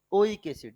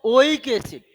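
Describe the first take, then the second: First: Said in the usual way. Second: ओइक acid said loud with stress on ओइक; emphatic term. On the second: Shown as a demonstration. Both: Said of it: "क्या बोलेंगे?".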